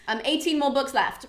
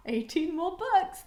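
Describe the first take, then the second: First: Said in the usual way. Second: "Eighteen more books" said slowly and higher, stretching "books" in dismay; dismayed repeat. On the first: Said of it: "that's maths". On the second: Shown as a demonstration. Vlogger to viewers dreading the long read, slow higher "Eighteen more books". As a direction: drag out "Eighteen more books" like a groan of despair. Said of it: "oh God, that's maths".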